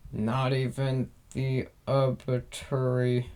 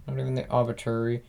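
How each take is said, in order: First: Slow, careful attempt at "obituary"; unsure pronunciation. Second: "obituary" retried at a quick pace; second-guessed pronunciation. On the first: Reader stuck on a word in the post, unsure pronunciation. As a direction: sound out "obituary" slowly, feeling for the word. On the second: Reader retrying a word they can't pronounce, quick and unsure. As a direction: rush through "obituary" as an uncertain guess. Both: Real, not acted. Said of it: "no idea how to pronounce that word".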